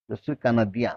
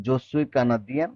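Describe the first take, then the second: First: Said in the usual way. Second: Slow French phrase with a rising end; slow demo. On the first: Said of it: "teacher repeats at normal speed". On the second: Shown as a demonstration. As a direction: model it slowly for the class. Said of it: "teacher models French line".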